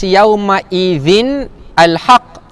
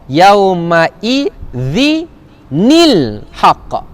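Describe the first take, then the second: First: The words join with no added 'ni' syllable. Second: An added 'ni' syllable links the words. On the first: The speaker calls it wrong. "Tak dibaca" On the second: The speaker calls it right. "tapi dibaca"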